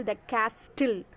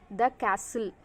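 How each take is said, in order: First: "castle" with the T sounded, "kas-til"; wrong pronunciation. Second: Said in the usual way. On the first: Shown as a demonstration. Teacher showing students the mistake, wrong pronunciation with sounded T. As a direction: say "castle" with an audible T after the S. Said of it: "it is wrong pronunciation". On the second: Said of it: "here T is silent".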